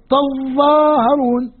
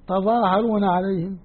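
First: تظاهرون with the ظ held long and hard, very slow; doubled ظ. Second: تظاهرون عليهم softly, with a single light ظ; light reading. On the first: Teacher contrasts Nafi's heavy reading, ظ held. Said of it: "وتشدد الظاء". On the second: Teacher contrasts Asim's light reading, said softly. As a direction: let تظاهرون glide, ظ not doubled. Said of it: "خفيف الفعل". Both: Shown as a demonstration.

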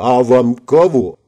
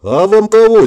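First: Slow, drawn-out curious question; acted unhurried puzzled greeting; mild surprise. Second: High, loud gawping question; acted astonished greeting; jaw-dropped astonishment. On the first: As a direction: draw it out at normal pitch, intrigued. Newcomer surprised by unknown lady. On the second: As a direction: ask loudly, voice jumping up in amazement. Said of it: "еле удержал пытающуюся отвалиться челюсть". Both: A narrator's reading.

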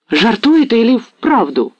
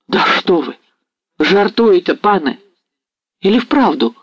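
First: Higher, slow, louder rapturous repeat; delighted. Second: Higher, eager disbelieving exclamation; excited cry. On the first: Ostap repeating Mazepa's offer to himself, overjoyed. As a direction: savour the words in pure delight. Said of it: "повторял он в восторге". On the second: Ostap leaping from his seat, crying out in disbelief. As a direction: jump up crying out in hope. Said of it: "вскрикнул Остап". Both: A narrator's reading.

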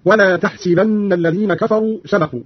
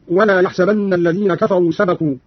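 First: "تحسبن" as tahsibanna; ta, kasra on sin. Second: Said in the usual way. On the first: Shown as a demonstration. Teacher showing Qalun's reading, "تحسبن" said tahsibanna. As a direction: start "تحسبن" with t and say si, not sa. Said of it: "بالتاء وكسر السين على الخطاب هكذا". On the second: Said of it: "بالتاء وكسر السين".

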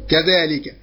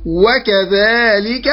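First: Said in the usual way. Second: وكذلك said very slowly, leaning on the opening و; وكذلك spelled out slowly, و first and weighted; stress on the added waw. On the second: Shown as a demonstration. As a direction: draw out the و of وكذلك to show the extra letter. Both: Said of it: "بزيادة حرف الواو".

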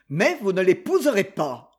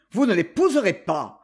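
First: Passionate outburst. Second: A touch louder, blunt and rough; rough repeat. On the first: Rejected suitor swearing to his rival lady, passionate. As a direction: let the vow burst out of him. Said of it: "un cœur débordant de passion". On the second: Felkin repeats his threat to Lady Molly, roughly. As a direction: hammer the refusal again, harder. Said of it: "répéta rudement Felkin". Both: A narrator's reading.

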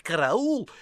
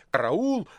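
First: Demo cry for help. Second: Lone hoarse cry. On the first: Precentor demonstrating how to shout 'Караул!'. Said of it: "следует скричать". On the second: Confused poet shouting 'Караул!' as told. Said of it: "крикнул". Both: A narrator's reading.

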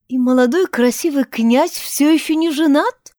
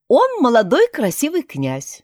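First: "И молодой красивый князь всё ещё не женат" as a high, probing question; inquiring repeat. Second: "Он молодой красивый князь" as a firm announcement, falling at the end; emphatic statement. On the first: A narrator's reading. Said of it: "прищурившись, поинтересовалась Тишка". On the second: Acted. Heroine announces the man she found.

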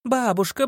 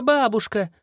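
First: High gleeful cry; excited. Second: High falling yell. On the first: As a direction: call out with a rising squeal. Girl shouts grandma gleefully. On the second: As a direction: holler it at full force. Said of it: "завопила во всю мощь". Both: Acted.

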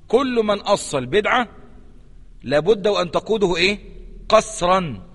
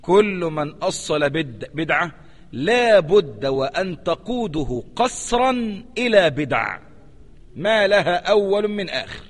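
First: Normal pace, pausing before "قسرا" and asking "إيه؟"; teacher's prompting recap; prompting repetition. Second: Very slow, word by word, "قسرا" leaned on; slow teacher's quotation; slow emphatic reading. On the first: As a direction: quiz the class on the missing word. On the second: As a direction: dictate it slowly so it sinks in. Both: Shown as a demonstration. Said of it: "انتبه لهذا الكلام".

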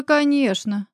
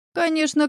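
First: High, languid coo; lightly voiced sultry woman. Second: Lightly voiced cooing woman; languid cooing. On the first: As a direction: coax him sweetly, purring. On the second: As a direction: purr it like a seductress. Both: A narrator's reading. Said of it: "томным голосом проворковала Елена".

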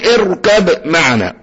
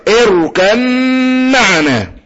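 First: اركب معنا with a released, echoing ب before the م; bounced باء. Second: Slow اركب معنا, ب turned into a long hummed م; باء merged into ميم. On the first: Teacher warns students off this, bounced باء. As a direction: pop the ب separately in اركب معنا. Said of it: "اوعى تقول اركب معنا". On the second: Teacher leads students in repeating, باء merged into ميم. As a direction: hum through a doubled م in اركب معنا, no ب. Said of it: "برضو الباء مع الميم". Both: Shown as a demonstration.

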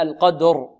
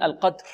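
First: القدر with a clearly voiced final ر. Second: القدر ending in a voiceless puff for ر; students' unvoiced ra. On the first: Shown as a demonstration. Teacher showing the correct way, voiced ر ending القدر. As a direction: draw out القدر, ringing the r with voice. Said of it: "فلا بد من إعطائها جهرها. هكذا". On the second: Teacher imitating students' mistake, voiceless ر in القدر. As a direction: let the r of القدر vanish into breath. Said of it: "أما بعض الطلاب يقولون".

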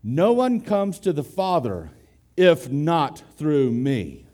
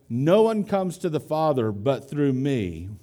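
First: Slow down and weigh "if not through me"; stress on if not. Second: Said in the usual way. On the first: Shown as a demonstration. Preacher giving the literal Greek reading, stressing "if not". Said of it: "The text literally reads". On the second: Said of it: "we translate the word B U T".

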